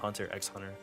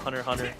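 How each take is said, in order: First: The middle X is spoken as a letter. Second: The middle X is left unspoken. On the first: This is how the speaker insists on saying the title. "I call it Hunter x Hunter only because I see an X" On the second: This is how other people say the title. "People call it Hunter x Hunter"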